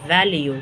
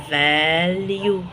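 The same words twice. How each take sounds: First: Said in the usual way. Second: "فاليو" very slow, long held vowels; sounded out. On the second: Shown as a demonstration. Teacher introducing "فاليو" to learners, drawn out very slowly.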